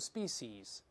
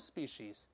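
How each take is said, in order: First: It uses an alternative pronunciation of the word. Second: It uses the usual pronunciation of the word.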